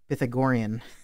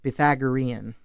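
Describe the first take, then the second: First: The word is said the Philippine way. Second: The word is said the American way. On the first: This is how it is said in the Philippines. "when I was back in the Philippines, we called it Pythagorean" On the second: This is how it is said in America. "here in America, we say Pythagorean"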